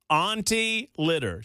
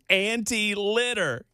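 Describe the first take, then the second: First: The first word is said like 'auntie'. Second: The first word is said like 'anti'. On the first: She is a kindly aunt. "I'll pronounce it differently to so you get the joke" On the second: She is against litter. "She's anti-litter"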